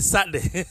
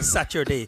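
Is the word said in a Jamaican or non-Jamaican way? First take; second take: Jamaican; non-Jamaican. First: The word is said in a Jamaican way. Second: The word is said in a non-Jamaican way. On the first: "we say Saturday" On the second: "In Jamaica, we don't say Saturday"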